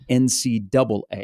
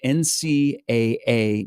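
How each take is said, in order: First: The two final letters are said as 'double A'. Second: Each of the four letters is said separately. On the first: This is the name the organization dislikes. The speaker calls it wrong. "not N C double A" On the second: This is the name the organization prefers. The speaker calls it right. "They like to be called N C A A"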